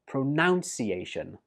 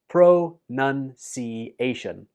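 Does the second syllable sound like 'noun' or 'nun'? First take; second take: noun; nun. First: The second syllable sounds like 'noun'. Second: The second syllable sounds like 'nun'. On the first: The speaker calls it wrong. "saying this word like pronunciation. But that's wrong" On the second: The speaker calls it right. "The second syllable in this word is nun, not noun"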